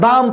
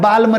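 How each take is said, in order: First: The L is silent, with a long ah vowel. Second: The L is sounded before the final M. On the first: The speaker calls it right. "बाम पढ़ेंगे बेटा" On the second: The speaker calls it wrong. "बाल में नहीं पढ़ेंगे"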